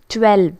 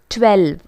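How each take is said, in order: No difference in how they are said.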